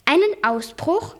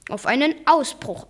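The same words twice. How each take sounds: First: "Einen Ausbruch" higher, slow, rising at the end; questioning echo. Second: Said in the usual way. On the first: A narrator's reading. Nephew echoing his uncle, "Einen Ausbruch" as a high rising question. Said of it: "fragte ich".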